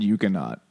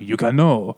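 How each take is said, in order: First: It is said in a plain English accent. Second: It is said in a French accent. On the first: "I've said Euconaut" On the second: "maybe very French, like Euconaut"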